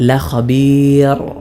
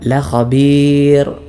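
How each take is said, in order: The two takes are said the same way.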